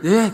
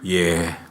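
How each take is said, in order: First: The voice is at a plain, normal pitch. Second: The voice is lowered and deep. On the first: The speaker is still humble. "집사님들은 예" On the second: The speaker feels superior after a promotion. "목소리를 깔아요"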